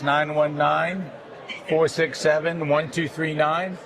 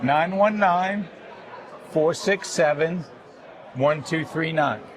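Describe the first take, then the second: First: The number is said at normal, quicker speed. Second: The number is said slowly and carefully.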